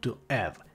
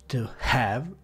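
First: The H at the start of 'have' is dropped. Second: The H at the start of 'have' is pronounced. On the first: The speaker calls it wrong. "e non to have" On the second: The speaker calls it right. "la H all'inizio delle parole va pronunciata"

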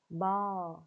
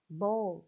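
First: It is said with an American accent. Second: It is said with a British accent. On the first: "Nhưng mà anh Mỹ thì chúng ta sẽ phát âm là ball" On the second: "Anh chúng ta đọc là ball"

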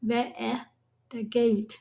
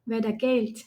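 First: Every syllable is pronounced clearly and separately. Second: The middle vowel nearly vanishes into a smooth drawl. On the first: "เอะอยู่ในลำคอนะ แล้วก็เสียงต่ำมันก็จะออกเสียงชัด" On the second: "เราแทบจะไม่ได้ยินคำว่าแอะเลยนะ มันก็จะกลายเป็นลากเสียงยาวไปเป็น"

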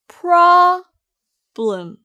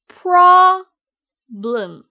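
Both takes have the same delivery.

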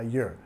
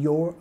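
First: The word is said in a reduced form. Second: The word is said in its full form. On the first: "a your" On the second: "Reduciendo el your"

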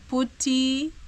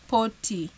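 First: The first syllable sounds like 'pu'. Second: The first syllable sounds like 'po'. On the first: "they tell me to call it putty, like for PU, then tea for drinking" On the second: "but some call it potty. P-O then potty"

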